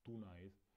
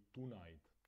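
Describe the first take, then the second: The two takes are said the same way.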